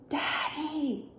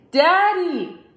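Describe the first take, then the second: First: Soft, higher little call; very quiet. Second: Higher, firmer call; a bit louder. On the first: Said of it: "Luke said very quietly". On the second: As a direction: raise your voice to wake him. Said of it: "said it a little bit louder". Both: A narrator's reading.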